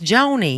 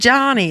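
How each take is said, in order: First: The first vowel is a long 'oh' sound. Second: The first vowel is a short 'ah' sound. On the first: The speaker calls it right. "It's Joni" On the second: The speaker calls it wrong. "It's not Johnny"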